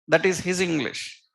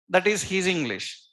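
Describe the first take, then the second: No difference in how they are said.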